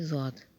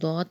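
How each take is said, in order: First: The word starts with a z-like sound. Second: The word starts with a d-like sound. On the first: The speaker calls it wrong. "ना कि ज़ौत" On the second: The speaker calls it right. "अहले अरब जो हैं वो दौत पढ़ते हैं"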